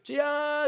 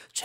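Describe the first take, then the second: First: Said in the usual way. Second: Tearful cry. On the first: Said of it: "이렇게 하지 말고". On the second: Shown as a demonstration. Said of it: "정말 눈물이 막 나오는 목소리".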